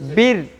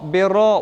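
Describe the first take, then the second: First: The r sound is thin and light. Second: The r sound is heavy and full. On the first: The speaker calls it right. "बारीक यानी इसको पतला करके पढ़ेंगे" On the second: The speaker calls it wrong. "अब हम इसको बेरो बेरो वो करके नहीं पढ़ेंगे"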